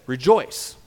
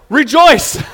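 First: Said in the usual way. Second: "Rejoice" shouted loud and high as a mock command. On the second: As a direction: bark "Rejoice" like an overdone order. Shouted end of mock plea.

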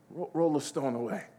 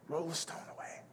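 First: Said in the usual way. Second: Whispered, barely voiced repeat; hushed command. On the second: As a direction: whisper it to the congregation.

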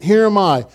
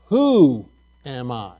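First: Firm, certain falling statement; emphatic statement. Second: Doubting question. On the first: Preacher showing Moses answering God, emphatic statement. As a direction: declare it with full confidence. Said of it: "really emphatically with a statement". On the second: Preacher showing Moses doubting God, a hesitant question. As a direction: voice drops away, unsure. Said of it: "because he's doubting". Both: Shown as a demonstration.

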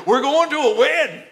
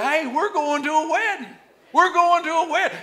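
First: Alabama accent, "going" with the G dropped, high and louder; Alabama drawl. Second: Higher, bright call to the neighbor; excited announcement. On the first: Preacher showing how an Alabama boy says it, Alabama accent. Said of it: "say it like an Alabama boy". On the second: Preacher leading the church to tell neighbors, excited. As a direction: tell your neighbor the good news. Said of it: "look at your neighbor and say". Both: Shown as a demonstration.

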